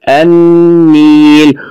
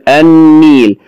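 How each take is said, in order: First: النيل with a long, stretched, heavy doubled n, very slow; heavy doubled consonant. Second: Said in the usual way. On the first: Shown as a demonstration. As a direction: lean hard on the doubled n of النيل, drawing it out. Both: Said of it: "وتلاحظ أنه ثقيل في النطق".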